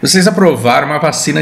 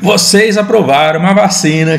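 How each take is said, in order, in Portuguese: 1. É dito com um sotaque leve e suavizado. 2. É dito com um sotaque regional imitado e forte. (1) "deixa eu tomar cuidado aqui com, com a minha encenação" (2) "aí eu tô fazendo um sotaque que, que é desrespeitoso"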